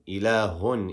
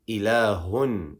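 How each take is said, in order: First: The final n sound is fully pronounced. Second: The final n sound is fully pronounced.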